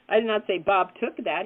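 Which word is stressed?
took. The stress is on the word took.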